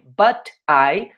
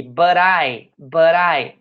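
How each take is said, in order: First: Said in the usual way. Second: "but I" run together with a tapped R-like T; linked flap T. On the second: Shown as a demonstration. Teacher shows students how they say it, "but I" linked with a flap. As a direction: say "but I" as one word, like "buh-rai". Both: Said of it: "olha só como é que eu falo isso aqui".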